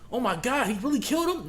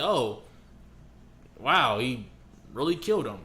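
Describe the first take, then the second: First: It sounds shocked and upset. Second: It sounds flat and indifferent.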